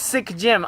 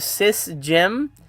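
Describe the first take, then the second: First: The first part ends with a k sound. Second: The first part ends with an s sound. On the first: The speaker calls it right. "it is Sick Jim" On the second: The speaker calls it wrong. "I've been calling you Sis Jim"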